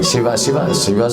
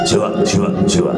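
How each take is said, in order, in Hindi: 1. यह मधुर, संगीतमय ढंग से बोला गया है। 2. यह दृढ़, आदेशात्मक ढंग से बोला गया है। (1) "संगीत से" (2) "आदेश से"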